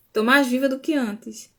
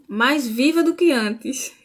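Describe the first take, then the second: First: Said in the usual way. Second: Slow, each word weighted on "mais viva do que antes"; slow emphatic. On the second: Shown as a demonstration. To her live viewers, slow emphatic "mais viva do que antes". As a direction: lean on "mais viva" slowly, with conviction.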